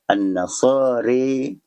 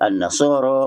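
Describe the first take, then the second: First: The final vowel is a clear e-like sound. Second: The final vowel is an open a sound. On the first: "imalah kubra bunyinya"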